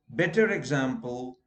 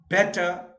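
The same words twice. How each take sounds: First: Better example with the R linked, beter-example; linking R. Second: Better with no R, bete; non-rhotic better. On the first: Teacher showing the class: better example with R linked. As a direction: sound the R before example. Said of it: "then R is heard". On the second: Teacher showing the class: better without R. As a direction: drop the R in better. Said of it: "you don't pronounce R". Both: Shown as a demonstration.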